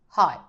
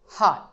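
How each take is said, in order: No difference in how they are said.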